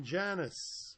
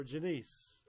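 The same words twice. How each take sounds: First: Janice stressed on the first syllable; "Janice" with a short, unstressed ending; first pronunciation. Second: Janice stressed on the second syllable; "Janice" with a long ee in the ending; alternative pronunciation. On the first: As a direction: say "Janice" as JAN-iss. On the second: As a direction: say "Janice" as juh-NEECE. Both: Shown as a demonstration. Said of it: "or Janice".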